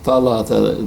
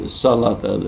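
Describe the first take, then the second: First: The word begins with a th sound. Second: The word begins with an s sound. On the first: This is the standard Arabic form. "Instead of saying" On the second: This is how the script led readers to say it. "they changed the sa into sin"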